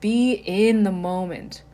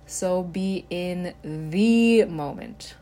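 First: The word "in" carries the emphasis. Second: The word "the" carries the emphasis. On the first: Be fully immersed in the moment. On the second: Be in this present moment, not another one.

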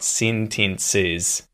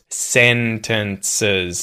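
First: The last syllable has a clear 'ih' vowel. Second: The last syllable has a weak 'uh' vowel. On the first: This sounds like a New Zealander. The speaker calls it wrong. "not sentences" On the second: This is how Australians say it. The speaker calls it right. "We would say sentences"

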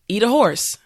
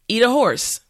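Both takes have the same delivery.

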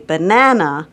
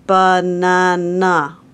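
First: One syllable is clearly stronger than the others. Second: All syllables are given the same even stress. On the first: This is the typical way of saying it. The speaker calls it right. "we would say banana" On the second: This reflects a speech movement disorder. The speaker calls it wrong. "a child with apraxia might say banana and not really make a different stress"

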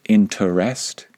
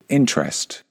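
First: The word is spoken with three syllables. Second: The word is spoken with two syllables. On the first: "Some of them might pronounce it with three syllables" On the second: "most of us just pronounce it with two syllables"

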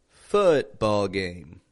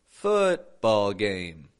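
No difference in how they are said.

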